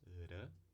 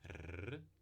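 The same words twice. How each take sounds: First: The tongue tip touches the ridge once. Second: The tongue tip vibrates several times. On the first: "um toque só nos alvéolos" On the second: "a vibrante múltipla, ela é alveolar"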